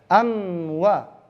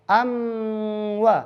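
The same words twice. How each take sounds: No difference in how they are said.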